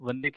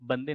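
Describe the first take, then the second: First: The word begins with a v sound. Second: The word begins with a b sound. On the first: This is how Hindi speakers say it. "Hindi में हम वंदे कहते हैं" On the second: This is how Bengali speakers say it. "वो बंगाली हैं तो वो बा कहेंगे"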